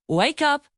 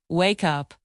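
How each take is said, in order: First: Cheerful teacher call of wake up; bright model word. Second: Lower, settling down on up; calm teacher echo of wake up; low falling repeat. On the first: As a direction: lift wake up brightly for the kids. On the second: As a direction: drop wake up gently to close it off. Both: Shown as a demonstration. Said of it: "Repeat after me".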